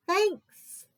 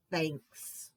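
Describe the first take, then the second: First: A sudden high, louder thanks. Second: Low, soft, deflated thanks; quiet thanks. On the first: Bear thanking Mouse for pie, high and bright. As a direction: pop the word up high and bright. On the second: Bear thanking Badger, low and soft. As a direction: let it drop low and quiet. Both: Acted.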